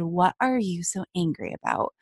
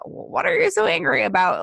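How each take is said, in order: First: It is said in a gentle, sincere tone. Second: It is said in a mocking, sarcastic tone. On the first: The question genuinely invites the listener to open up. "gave me this space, opened the door and said" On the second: The question is meant to make the listener feel bad. "not like the, ... Like sarcastic to make me feel bad"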